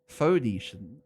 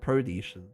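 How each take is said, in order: First: The word begins with an f sound. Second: The word begins with a pr sound. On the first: The speaker calls it right. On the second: The speaker calls it wrong.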